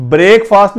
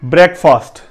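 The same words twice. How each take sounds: First: بریک فاسٹ as "brayk-faast"; long "ay" and long "aa" in بریک فاسٹ; wrong pronunciation demonstrated. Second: بریک فاسٹ as "brek-fust"; short "e" in بریک, short vowel in فاسٹ; corrected pronunciation. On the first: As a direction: say بریک like to break, then فاسٹ like quick. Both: Shown as a demonstration. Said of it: "بریک فاسٹ نہیں کہنا".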